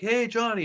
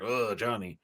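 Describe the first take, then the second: First: It sounds cheerful and admiring. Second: It sounds exasperated and disapproving.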